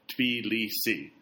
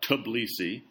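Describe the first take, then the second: First: The opening T and B are said together. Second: The opening T and B are split apart. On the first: The speaker calls it right. "the correct pronunciation is the first one I said" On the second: The speaker calls it wrong. "as I say sometimes, and I shouldn't"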